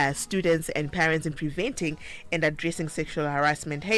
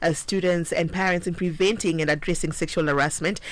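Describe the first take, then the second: The two takes are said the same way.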